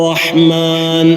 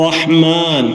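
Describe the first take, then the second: The two takes are said the same way.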